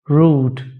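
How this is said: It is said in a British accent. "In British accent"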